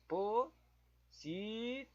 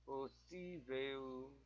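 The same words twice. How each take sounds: First: "Possível" drawn out very slowly, rising at the end; slow questioning sounding out. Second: "Possível" drawn out slowly and much softer, falling; quiet slow recheck. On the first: Testing quiz word "Possível", slow with a questioning rise. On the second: Rechecking quiz word "Possível", quiet and slow. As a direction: murmur "Possível" slowly to yourself. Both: Shown as a demonstration. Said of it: "Deixa eu tentar ver o possível".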